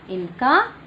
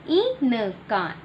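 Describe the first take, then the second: First: Said in the usual way. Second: Teacher models इनका slowly for the class; slow drawn-out model. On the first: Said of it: "normal take". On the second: Shown as a demonstration. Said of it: "slow model".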